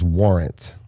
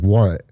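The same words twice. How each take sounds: First: The final T sound is clearly pronounced. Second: The final T sound is dropped entirely.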